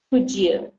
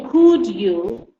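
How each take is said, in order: First: COULD YOU joined, d and y making a j sound; combined words. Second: COULD and YOU pronounced apart, a clear d before you; separated words. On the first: Teacher showing the correct way, could and you combined. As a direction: blend "Could you" smoothly into could-jou. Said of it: "you try to combine these two together". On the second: Teacher showing what not to say, could and you kept separate. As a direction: split "Could you" into two distinct words, punched. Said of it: "So you don't say". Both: Shown as a demonstration.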